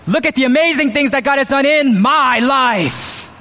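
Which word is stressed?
my. The stress falls on the word my. The speaker is elevating themselves. The speaker calls it wrong. "What God has done in my life makes me amazing"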